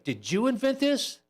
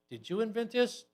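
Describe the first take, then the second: First: It sounds excited and supportive. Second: It sounds suspicious and hostile.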